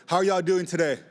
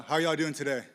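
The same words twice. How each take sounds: First: Louder, pumped-up call to the crowd; hyped crowd call. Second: Said in the usual way. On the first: Shown as a demonstration. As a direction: shout it out to wake up a tired room. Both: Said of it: "Y'all sound so tired".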